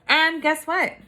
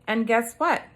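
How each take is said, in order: First: It is said with lively, excited energy. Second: It is said plainly, without excited energy. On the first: The speaker calls it right. "let me repeat that" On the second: The speaker calls it wrong. "I didn't say it with an exclamation point"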